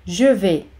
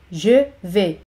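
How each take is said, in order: First: Said in the usual way. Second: "Je", short pause, "vais"; teacher's spaced-out "Je ... vais"; word by word. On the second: Shown as a demonstration. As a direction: separate "Je" from "vais" for learners. Teacher models phrase, then separates it.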